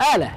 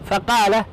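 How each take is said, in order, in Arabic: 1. تبدأ الكلمة بهمزة. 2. تبدأ الكلمة بصوت قاف عميق.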